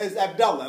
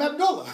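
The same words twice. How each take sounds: First: Abdullah said as ab-DAL-la; mistaken a form. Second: Abdullah with a rounded middle vowel; name form, u. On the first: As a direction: open middle vowel in Abdullah, no "oo". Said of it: "like it's a different". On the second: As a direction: say Abdullah as ab-DOOL-la. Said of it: "got mad if you". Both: Retold or imitated.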